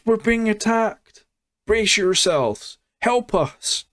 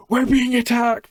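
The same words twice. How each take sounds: First: Much higher, hammed-up cries for help; mock alarm, calling out to the village; panicked villager cry. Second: Much higher mock alarm call; a villager running in crying for help, hammed up; panicked villager cry. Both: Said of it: "coming down the path and going".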